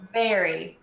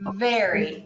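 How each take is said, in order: First: It starts with spread lips and a clear V. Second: The same.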